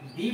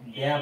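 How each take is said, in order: First: The word ends with an 'ee' vowel. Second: The word ends with an 'uh' vowel. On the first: It comes before a vowel sound. "ভাওয়েলের আগে ডি বলা হয়" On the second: It comes before a consonant sound. "কনসোনেন্টের আগে বসলে ড্যা বলা হয়"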